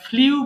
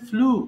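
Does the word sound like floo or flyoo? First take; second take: flyoo; floo. First: A y glide comes before the vowel. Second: The vowel follows the l directly. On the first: The speaker calls it wrong. "আমরা ভুল করে এটা ফ্লিউ বলে ফেলি" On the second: The speaker calls it right. "But এটা হবে ফ্লু"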